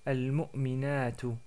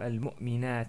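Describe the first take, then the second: First: The word ends with a final vowel sound. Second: The word ends on a consonant, vowel dropped. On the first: The word continues inside the sentence. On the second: The speaker stops on the word.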